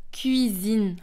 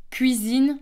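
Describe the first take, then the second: First: "cuisine" with a tight u-glide, "kü-izine"; "cuisine" with French u after the k, not w; French pronunciation. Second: "cuisine" said as "kwizine"; "cuisine" with w after the k; Belgian pronunciation. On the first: Teacher comparing countries, French cuisine with u-glide. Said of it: "qu'on va dire cuisine en France". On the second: Teacher comparing countries, Belgian cuisine pronounced "kwizine". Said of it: "en Belgique". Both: Shown as a demonstration.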